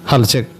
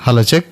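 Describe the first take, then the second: First: The voice sounds sharp with boosted high frequencies. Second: The voice sounds heavy with boosted low frequencies. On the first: "ఇప్పుడు base నుంచి కొంచెంగా trouble పెరిగింది, అంటే highs కొంచెం పెరిగినాయి" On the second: "ఇప్పుడు base పెంచుతాను చూడండి"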